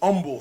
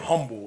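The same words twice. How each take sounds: First: The word begins without any H sound. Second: The word begins with an audible H sound. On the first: The speaker calls it right. "That H is silent" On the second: The speaker calls it wrong. "you do not say humble"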